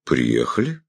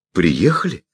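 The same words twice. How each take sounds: First: Phlegmatic. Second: Surprised. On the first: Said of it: "флегматично кивнул". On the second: Amazed delighted question. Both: Acted.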